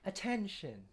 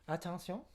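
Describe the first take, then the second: First: It is said with a smooth English pronunciation. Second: It is said with a French pronunciation. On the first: "like in English, we're more legato"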